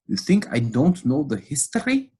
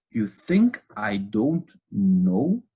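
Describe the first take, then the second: First: The retort repeated, more heated; angry, pressing. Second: Angry, drawn out. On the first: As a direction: push harder on the history. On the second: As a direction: drag out each word in scorn. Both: Retold or imitated. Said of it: "the pastor gets really angry".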